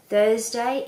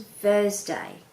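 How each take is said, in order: First: "Thursday" with a clear th, rising; correct th. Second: "Thursday" said as "Vursday", slowly. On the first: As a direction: say "Thursday" properly. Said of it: "instead of". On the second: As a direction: slowly mimic a child's v for th. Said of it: "it becomes". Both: Shown as a demonstration.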